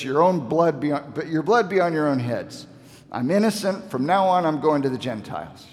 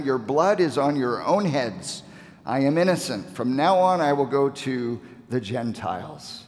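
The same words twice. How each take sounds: First: Rising, exasperated voice as Paul washes his hands of them; frustrated apostle giving up on his own people; dismayed frustration. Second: Said in the usual way. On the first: Retold or imitated. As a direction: throw up your hands, fed up and hurt. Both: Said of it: "you can hear the dismay and the frustration".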